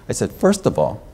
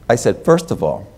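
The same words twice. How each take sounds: Both takes have the same delivery.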